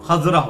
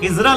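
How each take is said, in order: First: The first syllable has the vowel 'a'. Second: The first syllable has the vowel 'i'. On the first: The speaker calls it right. "खजरा होगा" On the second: The speaker calls it wrong. "खिजरा लफ्ज नहीं होगा"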